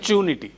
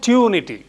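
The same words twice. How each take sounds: First: It begins with a ch sound. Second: It begins with a plain t sound. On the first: The speaker calls it wrong. "not tunity" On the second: The speaker calls it right. "There is no cha sound. It is tunity"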